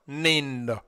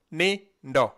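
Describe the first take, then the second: First: Said in the usual way. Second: "Ni, ndo" said as two clear separate syllables; slow syllable-by-syllable teaching demo; split into syllables. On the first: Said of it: "Nindo is two syllables". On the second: Shown as a demonstration. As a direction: break "Ni, ndo" apart with a pause between. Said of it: "That is ni and ndo".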